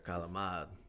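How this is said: The word is said in an Italian-American way. The speaker calls it right. "That's how you gotta say it"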